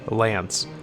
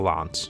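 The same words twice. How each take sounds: First: It is said in an American accent. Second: It is said in a non-American accent. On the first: The speaker calls it right. "I have to use the American pronunciation" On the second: The speaker calls it wrong. "it just sounds ridiculous to hear me saying it that way"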